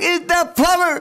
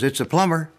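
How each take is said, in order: First: It is screamed at the top of his lungs. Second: It is said in a normal calm voice.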